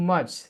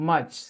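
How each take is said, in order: The two takes are said the same way.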